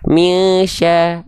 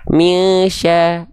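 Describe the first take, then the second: First: The nasal hum lasts only one beat. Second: The same.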